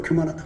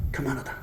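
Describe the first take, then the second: First: Said in the usual way. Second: 교만하다 said again much softer, under the breath; softly repeated. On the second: Shown as a demonstration. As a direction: drop to a hush on 교만하다. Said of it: "그걸 교만하다 그래요". (교만하다를 아주 작게 다시)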